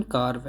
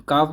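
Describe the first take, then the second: First: कार्व with the r sounded; correct pronunciation. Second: कार्व with silent r, "kaav"; alternative pronunciation. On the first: Teacher giving learners the standard carve, कार्व with r. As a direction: let the r be heard in कार्व. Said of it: "सही pronunciation कार्व है". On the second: Teacher allowing another way to say carve, कार्व without r. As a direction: drop the r in कार्व. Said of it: "कार्व भी बोल सकते हैं". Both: Shown as a demonstration.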